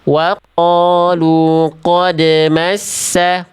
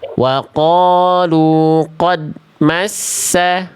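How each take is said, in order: First: The d in qad ends with a bouncing echo. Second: The d in qad ends without any bounce. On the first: The speaker calls it right. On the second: The speaker calls it wrong. "jangan sampai tadi Bunda baca bacanya begini"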